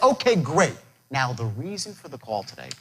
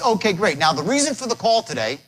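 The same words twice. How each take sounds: First: The voice drops lower and quieter. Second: The voice stays at a normal level. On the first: The speaker calls it right. "By dropping your voice" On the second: The speaker calls it wrong. "He says"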